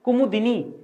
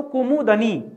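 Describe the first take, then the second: First: कुमुदिनी with a clear दि; correct pronunciation. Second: कुमुदनी said with short दनी, the wrong way; wrong pronunciation. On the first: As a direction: say कुमुदिनी carefully, the right way. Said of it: "बोलिए पहले मुंह से अपने". (कुमुदिनी सही उच्चारण, दि साफ़) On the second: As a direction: say कुमुदनी as the mistaken form. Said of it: "कुमुदनी नहीं होता है". (कुमुदनी गलत उच्चारण) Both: Shown as a demonstration.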